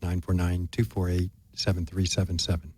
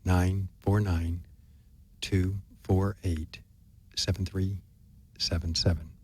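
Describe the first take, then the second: First: The number is said at normal speed. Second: The number is said very slowly.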